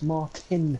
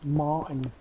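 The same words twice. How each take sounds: First: The middle t is clearly pronounced. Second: The middle t is dropped or softened. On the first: This is how it should be said. The speaker calls it right. "No, it's Martin. There's a tin in it" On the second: This is how American speakers say it. The speaker calls it wrong. "It's like when they say Martin"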